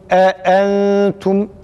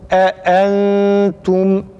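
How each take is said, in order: No difference in how they are said.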